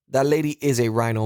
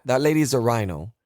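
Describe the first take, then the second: First: "is" stressed as its own separate word. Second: Said in the usual way. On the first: Real, not acted. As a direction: lean on "is" to insist. Repeats the line with emphasis.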